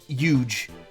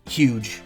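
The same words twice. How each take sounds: First: The word starts without an H sound. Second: The word starts with an H sound. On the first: "I say huge" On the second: "instead of huge"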